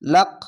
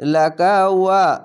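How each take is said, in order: First: The word stops short as lak, ending the phrase. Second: Laka runs straight into wa without stopping. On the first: "যদি থামতে হতো লাক এভাবে থামতে হতো" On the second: "মিলিয়ে কিভাবে পড়ে এরকম"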